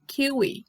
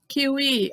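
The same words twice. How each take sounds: First: "kiwi" stressed on the first syllable, KEE-wee; English pronunciation. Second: Said in the usual way. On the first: Shown as a demonstration. Teacher shows how it reads in English, "kiwi" as KEE-wee. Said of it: "mas se lê kiwi". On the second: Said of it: "escreve igual, mas se lê kiwi".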